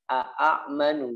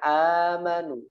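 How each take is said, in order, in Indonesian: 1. Hentian glotis mengikuti a pertama. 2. A pertama panjang tanpa hentian. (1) "aslinya kan a'manu, ada dua hamzah" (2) "Jadi bacanya amanu"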